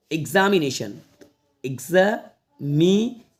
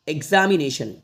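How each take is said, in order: First: examination slowly split "eg-za - mi - ne - shan"; broken into syllables. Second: Said in the usual way. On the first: Shown as a demonstration. Teacher showing how to read big words, slow separate syllables. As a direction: break examination up with long gaps. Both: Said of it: "ऐसे तोड़ के पढ़ लेना है".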